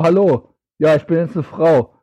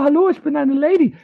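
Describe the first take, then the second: First: It is said in the speaker's normal voice. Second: It is said in a put-on feminine voice.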